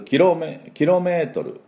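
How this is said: It is said with a Japanese accent. The speaker calls it wrong. "日本人だとキロメートル"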